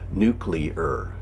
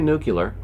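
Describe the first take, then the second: First: The middle syllable sounds like 'clee'. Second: The middle syllable sounds like 'cue'. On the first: The speaker calls it right. "Say it with me. Follow the bouncing ball" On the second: The speaker calls it wrong. "Do not say nuclear, because it makes you sound kind of dumb"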